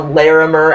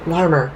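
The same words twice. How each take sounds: First: It is said the way an outsider would. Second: It is said the way locals say it. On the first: The speaker calls it wrong. "the one cop says that he is a Larimer Avenue Dago" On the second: The speaker calls it right. "It's Larimer"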